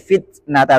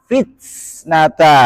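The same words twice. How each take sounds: First: The t is released without a hissing s. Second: A hissing s sound follows the t. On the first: The speaker calls it right. "Jadi fitnata saja" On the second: The speaker calls it wrong. "Jangan sampai ada sin tambahan. ... itu enggak boleh"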